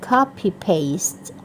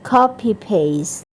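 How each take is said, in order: No difference in how they are said.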